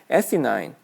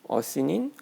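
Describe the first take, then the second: First: The first vowel is a stressed eh sound. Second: The first vowel is a weak uh sound. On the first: "강세가 있는 A는 에 발음이 되잖아요" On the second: "처음에 이 단어를 봤을 때 어시닌"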